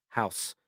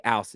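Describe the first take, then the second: First: Said in the usual way. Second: "house" with the H left off, 'ouse; dropped H. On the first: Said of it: "instead of house". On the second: Shown as a demonstration. Cockney host shows his accent, "house" without its H. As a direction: say "house" Cockney-style, starting on the vowel. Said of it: "Don't pronounce my H's".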